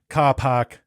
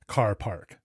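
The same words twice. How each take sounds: First: It is said without the R sounds. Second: It is said with the R sounds. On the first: This is how locals say it. "Australians say car park" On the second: This is how an American says it. "I say car park"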